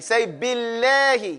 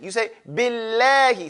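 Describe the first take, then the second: First: Billahi slowly with a light, thin lam. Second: Said in the usual way. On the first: Shown as a demonstration. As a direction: keep the lam in Billahi skinny, no rounding. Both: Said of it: "Now you're saying it real skinny".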